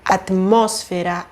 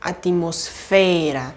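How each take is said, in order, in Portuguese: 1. A sílaba tônica é a antepenúltima. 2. A sílaba tônica é a penúltima. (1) "Nesse caso, essa palavra vai ser proparoxítona" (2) "e não"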